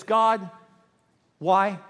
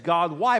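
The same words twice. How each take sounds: First: Higher, louder, with a long pause between words; anguished demand. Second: Said in the usual way. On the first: Shown as a demonstration. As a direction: cry out to heaven for a reason. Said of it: "it was more like this". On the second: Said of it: "the way they said it was more".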